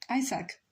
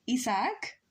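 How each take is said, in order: First: Isaac as EYE-zak, English vowels, falling; English pronunciation. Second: Isaac as ee-sahk, Spanish vowels, rising; Spanish pronunciation. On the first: Streamer testing the name for chat, English EYE-zak. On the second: Streamer testing the name for chat, Spanish ee-sahk. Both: Shown as a demonstration. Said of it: "to pronounce Isaac if not Isaac?".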